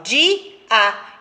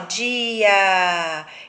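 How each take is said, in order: First: The two vowels are split into separate syllables. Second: The two vowels glide together in one syllable. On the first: The speaker calls it right. "eu falo di, a" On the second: The speaker calls it wrong. "Eu não falo assim, ó"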